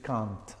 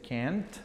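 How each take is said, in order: First: It is said in a British accent. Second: It is said in an American accent. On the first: "la forma negativa para British English es" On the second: "La forma negativa para American English es"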